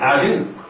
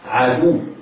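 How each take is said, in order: First: The d sound is followed by an i vowel. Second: The d sound is followed by a u vowel. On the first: The speaker calls it wrong. "بعض المبتدئين يقرأها بكسر الدال" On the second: The speaker calls it right. "العين مفتوحة والدال مضمومة والواو مشددة"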